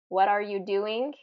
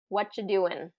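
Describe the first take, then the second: First: The word 'are' is clearly pronounced. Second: The word 'are' is dropped entirely. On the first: "Instead of what are you doing?" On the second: "they reduce and say what you doing?"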